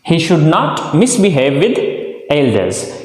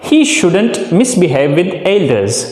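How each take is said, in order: First: Should not is said as two full words. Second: Should not is contracted into one word. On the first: "आप इसको लिखने में शुड नॉट ही लिखें" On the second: "speaking में आप इसको शुडंट use कर सकते हैं"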